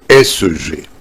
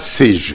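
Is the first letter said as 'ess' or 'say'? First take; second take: ess; say. First: The first letter is said as 'ess'. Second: The first letter is said as 'say'. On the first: The speaker calls it right. "c'est S G" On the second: The speaker calls it wrong. "ce n'est pas C G"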